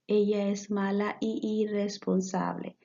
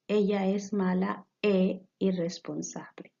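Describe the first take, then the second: First: The joining word sounds 'ee', merging into irresponsable. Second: The joining word sounds 'eh', distinct from irresponsable. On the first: The speaker calls it wrong. "if we leave it like that, we will read it like" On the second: The speaker calls it right. "we will read it like this"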